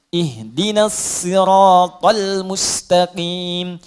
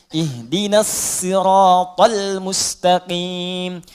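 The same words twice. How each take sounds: No difference in how they are said.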